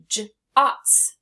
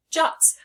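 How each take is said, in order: First: Jots split into a j sound, then ots. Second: Said in the usual way. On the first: Shown as a demonstration. Teacher adding an S, Jots sounded out as j, ots. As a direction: break Jots after the first sound, ots louder. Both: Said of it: "I'm going to put an S on the end".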